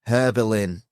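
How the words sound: The name is said with an English accent. "we'd probably call it Herbelin"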